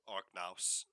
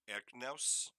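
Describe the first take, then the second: First: The name starts with an 'ar' sound. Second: The name starts with an 'er' sound.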